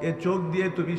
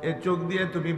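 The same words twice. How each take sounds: The two takes are said the same way.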